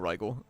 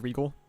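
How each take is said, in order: First: The name has an American-style pronunciation. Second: The name has a Japanese-style pronunciation. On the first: The speaker calls it wrong. "I do say it wrong. I say Rigel" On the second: The speaker calls it right. "in Japanese they pronounce it as Regal"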